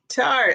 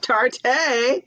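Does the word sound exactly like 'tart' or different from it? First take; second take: like tart; different. First: It is said exactly like the word tart. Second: It is not said like the word tart. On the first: The speaker calls it right. "It's pronounced like, oh, tart, sour" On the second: The speaker calls it wrong. "I was calling it Tarte"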